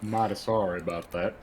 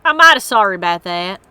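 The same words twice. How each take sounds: First: Put-on southern accent. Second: Hammed-up Southern apology; southern accent. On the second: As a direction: lean into the Southern accent on I'm mighty sorry. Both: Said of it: "practice that sort of accent".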